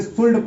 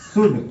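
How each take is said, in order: First: शुल्ड with the l sounded, shoold; mispronounced should with l; wrong pronunciation. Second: शुड with a silent l, like shood; should said right, l silent; correct pronunciation. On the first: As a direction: say शुल्ड with a clear l, the common mistake. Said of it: "इसको शुल्ड नहीं पढ़ना है". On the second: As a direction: say शुड, no l at all. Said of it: "इसको क्या पढ़ना है?". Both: Shown as a demonstration.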